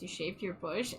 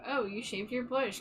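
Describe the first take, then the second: First: It sounds puzzled and confused. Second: It sounds warm and supportive.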